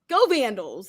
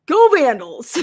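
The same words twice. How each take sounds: First: Said in the usual way. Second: High, loud Boston-style fan shout; mock cheer. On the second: Imitating a fan's cheer for the livestream. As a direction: yell it like a rowdy fan. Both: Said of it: "He does this".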